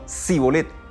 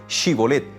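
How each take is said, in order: First: The word begins with a plain 's' sound. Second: The word begins with a 'sh' sound. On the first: The speaker is an outsider. The speaker calls it wrong. "no podía decir Shibolet, sino Sibolet" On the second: The speaker belongs to the group. The speaker calls it right. "El que era efrainita real podía decir Shibolet"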